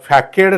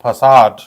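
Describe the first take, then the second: First: It is said with a k sound, fa-kade. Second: It is said with an s sound, fa-sahd. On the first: The speaker calls it wrong. "त्याचा उच्चार हा फॅकेड नाही होत" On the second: The speaker calls it right. "The correct pronunciation of this word is facade"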